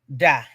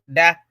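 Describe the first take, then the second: First: The word is said on a low tone. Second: The word is said on a higher tone. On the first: It means hair. "That one has come down with a, a low tone" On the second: It means laying an egg. "the hen laying egg is da"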